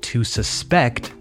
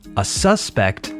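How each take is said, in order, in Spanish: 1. El acento está en la segunda sílaba. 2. El acento está en la primera sílaba. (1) "stress on the final syllable" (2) "with the stress on the first syllable"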